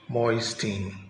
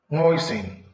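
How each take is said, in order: First: The T sound is pronounced. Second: The T sound is not pronounced. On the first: The speaker calls it wrong. "not moisting" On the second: The speaker calls it right. "the T is silent"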